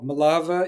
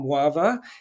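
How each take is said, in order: First: The name is said with a Yiddish pronunciation. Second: The name is said with a Polish pronunciation. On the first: "in Yiddish" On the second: "which the Poles resolutely call"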